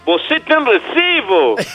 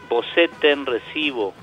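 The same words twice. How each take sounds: First: It is spoken with a melodic Portuguese-style intonation. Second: It is spoken with a flat Spanish-style intonation. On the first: The listener will understand it. The speaker calls it right. "Le tienen que decir "Vosé ten recibo"" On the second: The listener will not understand it. The speaker calls it wrong. "no le puede decir "Vosé ten recibo", porque no le va a entender"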